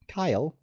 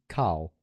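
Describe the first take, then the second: First: The name is said with an 'eye' vowel, no R. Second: The name is said with an 'ar' vowel and R. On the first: Someone else mispronounced the name. The speaker calls it wrong. "she couldn't say the R's in my name" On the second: This is the speaker's real name. The speaker calls it right.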